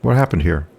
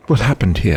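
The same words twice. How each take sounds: First: Said in the usual way. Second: Put-on generic English accent; generic British accent. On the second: Brother questioning his sister by telephone, generic British accent. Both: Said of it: "generic, generic British accent".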